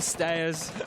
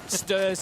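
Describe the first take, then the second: First: The vowel sounds like the one in 'stare'. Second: The vowel sounds like the one in 'stir'. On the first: "instead of stairs" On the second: "stirs instead of stairs"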